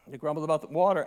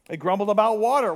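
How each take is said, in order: First: Said in the usual way. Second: Quick, louder with weight on water; emphatic. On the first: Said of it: "repeat said plainly". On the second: Shown as a demonstration. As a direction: punch "water" fast and hard. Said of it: "repeats line, second time plain".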